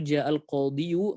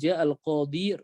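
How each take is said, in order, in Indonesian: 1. Kata terakhir berakhir dengan bunyi yu yang ditambahkan. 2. Kata terakhir berakhir dengan i panjang biasa. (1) "Takdirnya itu" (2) "seperti tidak berubah kalau kita ucapkan"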